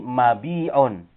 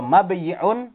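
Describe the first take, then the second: First: Mabi'un slow, with a long bii; contracted form. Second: Mabayi'un with yi as its own syllable; uncontracted form. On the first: Teacher showing the changed form, slow mabi'un with long ii. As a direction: drop the y and stretch bii in mabi'un. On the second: Teacher showing the form before the change, mabayi'un with yi. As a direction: sound the y clearly in mabayi'un. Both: Shown as a demonstration. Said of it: "menjadi mabi'un".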